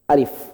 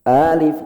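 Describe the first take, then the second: First: The first vowel is short and level. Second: The first vowel is long and raised. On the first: The speaker calls it right. "Cukup alif" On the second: The speaker calls it wrong. "Jangan alif, jangan"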